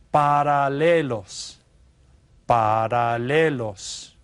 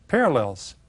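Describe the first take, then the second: First: Paralelos said slowly with a tapped Spanish r. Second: Said in the usual way. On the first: Shown as a demonstration. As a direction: drag out paralelos, each syllable clear. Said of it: "En español son". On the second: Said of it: "what we call them in English".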